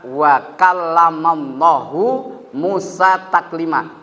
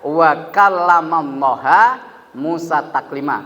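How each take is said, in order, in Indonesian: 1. Kata untuk Tuhan berakhir dengan vokal 'oo'. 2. Kata untuk Tuhan berakhir dengan vokal 'ah'. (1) "Hu sama ha" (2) "Hu sama ha"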